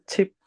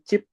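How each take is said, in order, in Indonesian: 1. Bunyi pertama ada hembusan napas yang kuat. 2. Bunyi pertama tidak ada hembusan napasnya. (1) "tapi chip" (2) "bukan chip ya"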